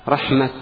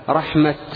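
Both takes have the same delivery.

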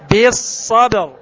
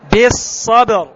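First: The b is voiced, strong and bounced. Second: The b is voiced, strong and bounced.

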